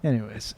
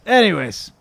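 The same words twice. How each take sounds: First: Low, soft mumbled segue; quiet segue. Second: Higher, falling restart; lifted segue. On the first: Host moving on to fan questions, quiet segue. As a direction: drop it low and small. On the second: Host moving on to fan questions, lifted segue. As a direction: lift it to restart the show. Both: Real, not acted. Repeats himself to restart the show.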